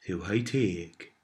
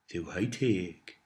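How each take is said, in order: Both takes have the same delivery.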